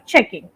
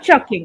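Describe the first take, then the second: First: The first vowel is an E sound. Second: The first vowel is an A sound. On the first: The speaker calls it right. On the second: The speaker calls it wrong.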